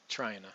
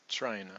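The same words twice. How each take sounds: No difference in how they are said.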